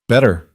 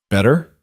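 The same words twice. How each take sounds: First: Better, with a falling settled tune; confirming. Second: Better? with a rising question tune; asking. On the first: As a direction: confirm Better, dropping at the end. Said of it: "Elena confirmed". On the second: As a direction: ask Better? lifting at the end. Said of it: "Victor asked". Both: A narrator's reading.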